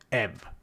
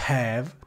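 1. La parola inizia senza alcun suono H. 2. La parola inizia con un suono H udibile. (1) "e non have" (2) "il verbo avere ha la pronuncia della H iniziale"

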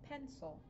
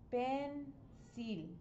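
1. La palabra se dice con sonidos del inglés. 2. La palabra se lee con sonidos de letras del español.

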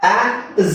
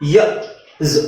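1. ಆ ಅಕ್ಷರವನ್ನ 'aa' ಶಬ್ದದಿಂದ ಹೇಳ್ತಾರೆ. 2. ಆ ಅಕ್ಷರವನ್ನ 'ya' ಶಬ್ದದಿಂದ ಹೇಳ್ತಾರೆ. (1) "ಆ ಝ ಅಲ್ಲ"

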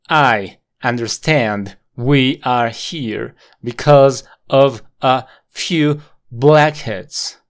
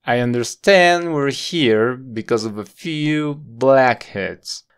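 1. Las palabras se separan con muchas pausas pequeñas. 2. Las palabras se unen suavemente, sin pausas. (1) "¿Notas que hay muchas pausas entre medio?" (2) "suavizar estas conexiones y conectar estas palabras de una manera muy suave"

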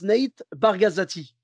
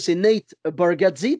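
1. Le nom de famille se dit avec une syllabe en plus. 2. Le nom de famille se dit en trois syllabes. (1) "il y en a, je ne sais pas pourquoi, il prononce Nate Bargazzati" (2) "son nom, c'est Nate Bargatze"

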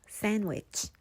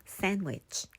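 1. D 소리는 묵음이에요. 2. D 소리는 묵음이에요.

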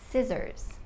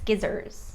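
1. คำนี้ขึ้นต้นด้วยเสียง s ธรรมดา 2. คำนี้ขึ้นต้นด้วยเสียง sk (1) "จะออกเสียงว่า" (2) "คำนี้คือยากเพราะว่าตัว c ไม่มีเสียงนะคะ จะไม่พูดว่า"

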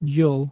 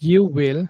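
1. শব্দ দুটো মিলে একটা ছোট সিলেবল হয়ে যায়। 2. দুটো শব্দই পুরোপুরি আলাদাভাবে বলা হয়।

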